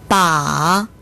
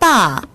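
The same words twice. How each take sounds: First: The pitch dips low, then rises. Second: The pitch falls sharply from high. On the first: It means a handle. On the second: It means father.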